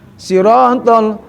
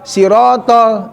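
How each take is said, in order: First: The first vowel is full, with lips rounded. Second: The first vowel is thin, with lips spread. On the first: The speaker calls it right. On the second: The speaker calls it wrong.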